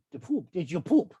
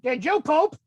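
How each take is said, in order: First: Said in the usual way. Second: A mild mock yell of the nurse; retold nurse scream. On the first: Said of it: "But she said". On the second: Hospital nurse asking the kid, mild mock yell. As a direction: call it out like the nurse did, half-hearted. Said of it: "screamed it".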